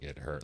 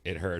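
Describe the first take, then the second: First: It is said with strained, serious distress. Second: It is said lightly, with laughter. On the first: It was a serious injury needing help. "like take me to the hospital" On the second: It was only a minor hurt. "ha ha ha"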